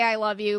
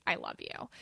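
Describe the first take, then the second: First: Said in the usual way. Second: Much lower and softer; deep hushed I love you; a different way. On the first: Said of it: "That's not how I say". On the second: Retold or imitated. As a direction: drop it low and soft as another person's way. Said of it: "how they say".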